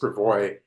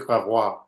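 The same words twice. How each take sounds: First: The name gets a local, English-style pronunciation. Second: The name gets a standard French-style pronunciation. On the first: This is how the local street name is said. "is sort of a unexpected way to pronounce that word" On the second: This is how someone who studied French says it. "if you've taken French in high school or college, you might pronounce it"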